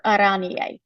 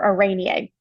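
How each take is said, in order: First: First Araneae with a broad AH; alternative pronunciation. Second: Second Araneae with a long AY; alternative pronunciation. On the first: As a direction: say "Araneae" as a-RAH-nee-ay. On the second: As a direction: say "Araneae" as a-RAY-nee-ay. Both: Shown as a demonstration. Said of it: "however you wanna pronounce it".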